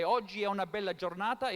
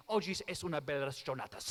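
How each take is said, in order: First: "Oggi è una bella giornata" said as normal Italian, è with no s; easy plain Italian line, "è una" run together. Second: "Oggi es una bella giornata" with an s on "es", said a bit lower and softer; jokey Spanish version of the Italian line; mock Spanish. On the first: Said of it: "Like in Italian, we might say". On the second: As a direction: fake the Spanish by tacking an s onto the Italian. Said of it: "If you want to speak Spanish". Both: Shown as a demonstration.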